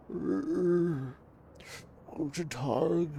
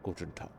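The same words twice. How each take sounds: First: Put-on gruff old German shopkeeper, higher; lightly voiced old German man; German accent. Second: Said in the usual way. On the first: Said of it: "heavily accented with German tonality". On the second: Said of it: "how do you do old voices?".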